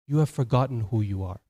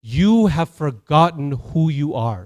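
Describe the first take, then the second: First: Lower, subdued repetition; solemn echo. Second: Slow, weighty declaration; solemn pronouncement. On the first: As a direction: let it sink in, low and grave. Same revelation repeated lower. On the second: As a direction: proclaim it with drawn-out words. Rafiki's revelation, then repeated lower. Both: Acted.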